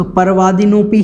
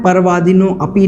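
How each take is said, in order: First: परवादिनोपि said as one joined word; correct joined form. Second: परवादिनो अपि said as two words with a break before अपि; wrong split reading. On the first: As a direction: run परवादिनोपि together without a break. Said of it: "परवादिनोपि ही बोलना है". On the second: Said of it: "परवादिनो अपि नहीं बोलना है". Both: Shown as a demonstration.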